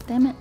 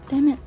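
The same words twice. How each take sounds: The two takes are said the same way.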